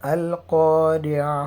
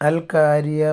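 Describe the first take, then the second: First: The first consonant is a heavy, deep q. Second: The first consonant is a light, plain k. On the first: The speaker calls it right. "അൽ ഖാരിഅ എന്ന രീതിയിൽ തന്നെ അത് ഓതേണ്ടതാണ്" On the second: The speaker calls it wrong. "പല കുട്ടികളും അൽ കാരിയ മൽ കാരിയ എന്ന രീതിയിൽ ഓതാറുണ്ട്. അങ്ങനെ ഓതിയിട്ട് ഒരു കാര്യമില്ല"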